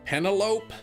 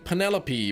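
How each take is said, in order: First: It is said to rhyme with cantaloupe. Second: It is said with four syllables, ending in 'pee'. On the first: "it's pronounced like cantaloupe" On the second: "Her name is actually Penelope"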